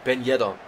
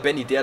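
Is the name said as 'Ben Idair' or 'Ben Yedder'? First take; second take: Ben Yedder; Ben Idair. First: The name sounds like 'Ben Yedder'. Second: The name sounds like 'Ben Idair'. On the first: This is how a commentator said it. The speaker calls it wrong. "hat ein deutscher Kommentator nicht Ben Idair gesagt, sondern Ben Yedder" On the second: This is how the speaker usually says it. The speaker calls it right. "Ich nenne ihn weiter Ben Idair, das klingt besser"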